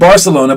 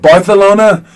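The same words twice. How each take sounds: First: The 'c' is said as an 's' sound. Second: The 'c' is said as a 'th' sound. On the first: "not Barcelona" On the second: "but Barcelona because their king at the time... had a lisp"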